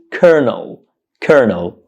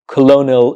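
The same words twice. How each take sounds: First: "colonel" said KER-nul; "colonel" stressed on the first syllable, no "lo"; correct pronunciation. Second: "colonel" read as spelt, co-LO-nul; "colonel" with both l's wrongly sounded; incorrect pronunciation. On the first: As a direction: model "colonel" in two syllables with an r. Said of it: "The correct pronunciation of this word is". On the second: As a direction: say "colonel" in three syllables, stressing "lo". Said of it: "colonel incorrectly". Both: Shown as a demonstration.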